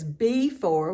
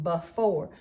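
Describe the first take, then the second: First: The first vowel is a full, clear vowel. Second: The first vowel is a weak schwa. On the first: This helps to remember the spelling. "we have to think of it as before when we spell it" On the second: This is how the word is normally spoken. "we say that with a schwa sound"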